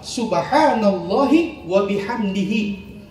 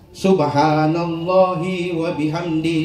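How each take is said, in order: First: The final syllable 'hi' is pronounced. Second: The final syllable 'hi' is left off. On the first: The praise refers to God alone. The speaker calls it right. "Yang benar adalah" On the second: The praise also counts the speaker as holy. The speaker calls it wrong. "Itu salah"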